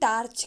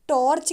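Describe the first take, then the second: First: The first vowel is a clear 'aa' sound. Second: The first vowel is a clear 'o' sound. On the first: "ना ही आ कहते हैं" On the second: "ना तो हम ओ कहते हैं"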